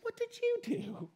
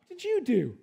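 First: Much higher and softer, pointed YOU; pointed repeat question. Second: Said in the usual way. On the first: Acted. God re-asks evasive Adam, high, soft and pointed on YOU.

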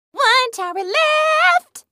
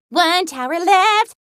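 First: High, slow, climbing call; giddy sing-song call. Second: Lilting call, rising at the end; eager call-out. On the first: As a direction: stretch "left" upward, bursting with excitement. Countdown call, higher repeat. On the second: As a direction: call it out with a lift on "left". Countdown call, first take. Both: Acted.

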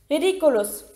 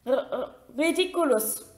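First: Firm spell call, no stammer. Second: Stammered squeak. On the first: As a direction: call it out in one confident go. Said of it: "rief er". (entschlossen gerufener Zauberspruch) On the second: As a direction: stumble into the word in a small squeak. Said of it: "quiekte Neville". (stotterndes, leises Quieken) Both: A narrator's reading.

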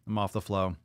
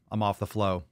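Both takes have the same delivery.

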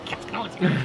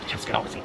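First: High, playful teasing. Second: Hushed whisper. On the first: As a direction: sing it out, teasing. Repeats the tease louder. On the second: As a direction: whisper it under your breath. Teasing about a twitch. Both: Real, not acted.

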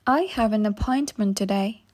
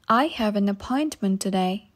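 No difference in how they are said.

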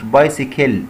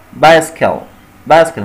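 First: "بايسيكل" said as baisikel, an extra i; wrong pronunciation. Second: "بايسكل" said as baiskel, no middle i; correct pronunciation. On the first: Teacher showing the wrong "بايسيكل" to students. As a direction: say "بايسيكل" with the added i. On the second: Teacher modelling "بايسكل" for students. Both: Shown as a demonstration. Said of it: "مش بايسيكل".

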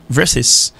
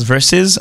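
First: "versus" said "VER-ses", with a hissed s at the end. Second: "versus" said "VER-sez", with a buzzing z at the end. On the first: Teacher showing learners the other English pronunciation, "versus" ending in s. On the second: Teacher showing learners the English pronunciation, "versus" ending in z. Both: Shown as a demonstration. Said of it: "ça se prononce également versus".

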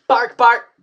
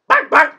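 First: Loud, higher mock barking; robot dog bark. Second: High, loud mock barking; Goddard barking. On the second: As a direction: yap like a cartoon robot dog. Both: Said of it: "I'm Goddard from Jimmy Neutron".

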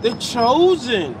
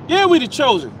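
First: Very drawn-out mocking "chosen"; imitated mockery. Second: Said in the usual way. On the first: Scoffers taunting those called chosen, drawn-out mockery. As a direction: stretch it slowly as a mock title. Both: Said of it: "It was a mockery".

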